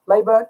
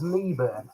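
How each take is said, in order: First: The first syllable sounds like 'lay'. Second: The first syllable sounds like 'lee'. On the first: The speaker calls it right. "Lay, Leyburn" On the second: The speaker calls it wrong. "I always thought it was Leeburn"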